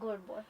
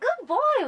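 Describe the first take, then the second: First: It is said flatly, without enthusiasm. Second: It is said warmly, with excited enthusiasm. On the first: The praise sounds half-hearted. The speaker calls it wrong. "some people just say" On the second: The praise sounds genuine and rewarding. The speaker calls it right. "you have to know how to change your tone"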